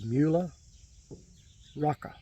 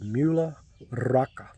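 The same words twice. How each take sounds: First: The R in Rocca is not rolled. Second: The R in Rocca is rolled.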